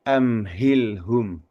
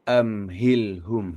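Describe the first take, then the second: The two takes are said the same way.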